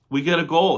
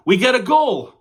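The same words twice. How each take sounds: First: Said in the usual way. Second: High, loud joyful cry; real burst of delight; excited goal call. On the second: Real, not acted. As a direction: shout it like your team scored.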